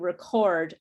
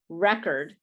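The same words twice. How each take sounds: First: The stress is on the second syllable. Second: The stress is on the first syllable. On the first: It is a verb, the act of recording. "the word stress is in a different place" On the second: It is a noun, a stored recording. "it's pronounced with the the stress in the first position, the first syllable"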